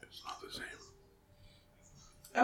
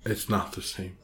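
First: Very slow, barely-there whisper; whispered complaint. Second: Low, soft falling mumble; quiet complaint. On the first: Co-host pining for sloppy joes, drawn-out whisper. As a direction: whisper it slowly, almost inaudibly. Repeats own line, now whispered. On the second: Co-host missing the sloppy joes, quiet complaint. Repeats own line, second whispered. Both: Real, not acted.

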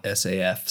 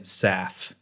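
First: "S A F" as three separate letters; spelled out. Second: "saf" run together as one syllable; said as a word. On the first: Host gives the disfavoured name, "S A F" letter by letter. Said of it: "very keen on calling it saf". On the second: Host explains the maker's preferred name, "saf" as one word. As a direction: say "saf" like a word, not three letters. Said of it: "not S A F". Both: Shown as a demonstration.

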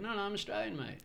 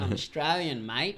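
First: Said in the usual way. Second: Loud, exaggerated Aussie accent; louder, hammed-up Australian twang; put-on Australian accent. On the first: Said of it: "and I'd be like". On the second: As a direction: ham up a broad Australian accent. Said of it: "I put on this awkward accent".

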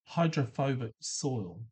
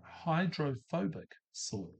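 First: Hydrophobic soil said slowly, each syllable of hydrophobic spelled out; teacher introducing a big word, careful and slow; carefully sounded out. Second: Hydrophobic soil repeated slowly and softer, each syllable of Hydrophobic clear; teacher repeating a big word, softly and slowly. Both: Shown as a demonstration. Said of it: "this is a big word".

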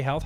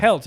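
First: Said in the usual way. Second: "Health" with a hard t in place of th; "Health" ending in a plain t; health as "helt". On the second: Retold or imitated. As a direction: mispronounce "Health" as "helt", imitating the scammer. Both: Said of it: "you can't even say health".

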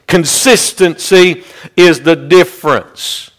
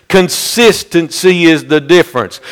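First: Slow, weighty. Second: Said in the usual way. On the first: Real, not acted. First take of a repeated maxim.

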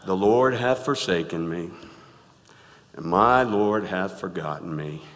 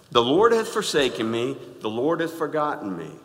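First: A hint of glum Eeyore; gloomy Eeyore reading. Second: Said in the usual way. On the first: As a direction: drag it out like a sad donkey. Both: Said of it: "read it like Eeyore would read it".

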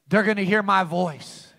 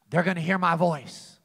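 The two takes are said the same way.

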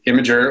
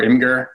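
First: Imgur with a soft g, "IM-uh-jer"; soft-g pronunciation. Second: Imgur with a hard g, "IM-gur"; hard-g pronunciation. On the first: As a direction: say Imgur like "imager". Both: Shown as a demonstration. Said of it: "How do you pronounce it?".

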